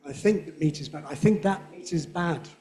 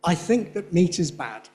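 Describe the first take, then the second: First: That said as weak schwa, meat stressed; unstressed that before meat. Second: That said strong with full vowel; demonstrative that. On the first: Teacher demonstrating weak conjunction that. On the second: Teacher demonstrating strong demonstrative that. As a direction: stress on that. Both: Shown as a demonstration. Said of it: "It's not the same".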